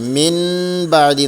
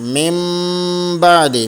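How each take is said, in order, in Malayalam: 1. 'ba'യ്ക്ക് മുമ്പുള്ള നാസിക്യം n പോലെയാണ് കേൾക്കുന്നത്. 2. 'ba'യ്ക്ക് മുമ്പുള്ള നാസിക്യം m പോലെയാണ് കേൾക്കുന്നത്. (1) "മിൻ ബഅദി എന്നല്ല"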